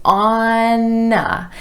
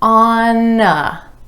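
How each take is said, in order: First: The N links over onto the following vowel. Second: The same.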